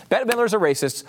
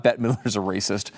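First: Mock outrage. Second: Said in the usual way. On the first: Shown as a demonstration. Host mocking the outrage at [name], high and scandalised. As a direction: squeal it like a faked scandal.

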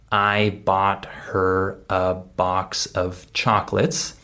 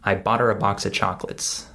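First: Every word separate and fully sounded; slow, word-by-word model sentence with a full "of"; slow careful diction. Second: Quick, linked words with "her" and "of" reduced; normal-speed reduced speech. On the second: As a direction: run it together like a native speaker. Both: Shown as a demonstration. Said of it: "if I say this at normal speed".

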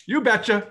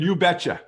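First: "You betcha." much higher and louder; hammed-up Minnesota accent. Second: Bright Minnesota "You betcha.", higher and louder; Minnesota accent. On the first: Host repeats the phrase, pushing the Minnesota accent further. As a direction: really ham up the Minnesota cheer. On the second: Retold or imitated. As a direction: chirp it like a friendly Minnesotan.

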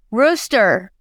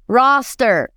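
First: ROOSTER said alone with a long oo. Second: ROSTER said alone with an open ah. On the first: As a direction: say ROOSTER slowly, vowel as in "boot". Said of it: "If the rooster was sent it". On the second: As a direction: correct it to ROSTER, vowel as in "lost". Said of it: "it's roster". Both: Retold or imitated.

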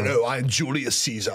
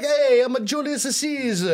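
First: Put-on a light movie-Roman British accent; a touch of British accent for a film Caesar; mock British accent. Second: Hammed-up Italian accent, much higher and slow; joking Italian-accent Julius Caesar introducing himself; mock Italian accent. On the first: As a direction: say it like a Brit in a Roman epic. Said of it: "But they're like". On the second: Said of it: "shouldn't Romans have an Italian accent".

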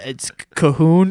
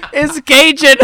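First: Slow, hesitant "Cahoon" for Cajun, ka-HOON; mispronounced Cajun. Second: High, loud outburst saying "Cajun" as KAY-jun; incredulous correction. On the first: Imitating Espo trying to read Cajun off the menu, mispronounced. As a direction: offer "Cahoon" slowly as a guess. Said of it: "And he goes". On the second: Friends correcting Espo at the bar, incredulous. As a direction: cry out "Cajun" correctly in disbelief. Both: Retold or imitated.

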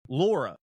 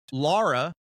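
First: Laura with a rounded AW, LAW-ra; usual Laura. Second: Laura with an open AH, LAH-ra; Iowan pronunciation. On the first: Shown as a demonstration. Giving his mom's name as he says it, LAW-ra. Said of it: "which is my mom's name". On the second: Retold or imitated. Quoting Amber saying mom's name, Iowan LAH-ra. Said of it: "That's just how Iowans say it".

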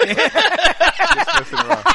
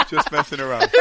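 First: High, slow put-on voice; mock voice. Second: Said in the usual way. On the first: Joking to the housekeeper in a silly high drawn-out voice.

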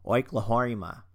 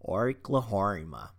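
First: Oklahoma in a bad Australian accent, stretched slowly. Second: Australian accent. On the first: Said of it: "say it in an Australian accent". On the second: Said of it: "I'm horrible at the Australian accent". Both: Shown as a demonstration.

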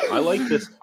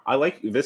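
First: Laughs through the words; amused laugh breaking in. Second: Said in the usual way. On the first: Real, not acted. Laughing at peach beer joke.

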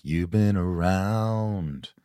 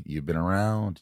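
First: Very slow, stretched repeat; slow, savouring echo; slow drawn repeat. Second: Said in the usual way. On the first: Shown as a demonstration. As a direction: drag it out with feeling.

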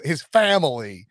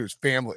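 First: Slow, drawn-out Southern FAMILY; mock Southern accent. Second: Said in the usual way. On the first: Host asking about coach talking at home, mock Southern accent. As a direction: stretch the word out in a fake Southern twang. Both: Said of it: "in that accent".

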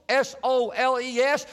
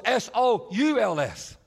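First: "S O L E S" spelled letter by letter. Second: "S O U L S" spelled letter by letter, a little slow. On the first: Jesus to cobblers, spelling "soles": S O L E S letter by letter. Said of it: "repairing soles". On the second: Jesus to cobblers, spelling "souls": S O U L S slowly. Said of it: "repair souls". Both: Shown as a demonstration.

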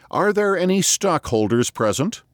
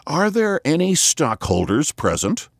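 First: Very high, calling to the echoes; a high hollow hail into the distance; high distant call. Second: Hoarse, booming like into an empty barrel; a boy calling into a hogshead, hoarse and high; mock hollow echoing call. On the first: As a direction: hands cupped, call it high and far away. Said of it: "making his voice high and distant as one calling to the echoes". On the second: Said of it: "making his voice hoarse like a boy calling into an empty hogshead". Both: A narrator's reading.

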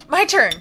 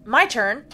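First: Louder and higher, insistent; louder, eager. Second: Said in the usual way. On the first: Acted. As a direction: call it out eagerly. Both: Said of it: "repeated my turn".

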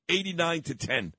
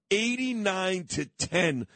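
First: Said in the usual way. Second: "Eighty-nine to ten" drawn out slowly; emphatic repeat. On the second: Real, not acted.

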